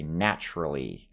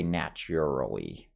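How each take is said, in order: First: "naturally" as NATCH-ruh-lee; own pronunciation. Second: "naturally" as NATCH-yur-uh-lee; rejected pronunciation. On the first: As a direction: say "naturally" without a U sound. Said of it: "like no U sound". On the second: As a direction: say "naturally" with an added U sound. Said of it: "I would not say". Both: Shown as a demonstration.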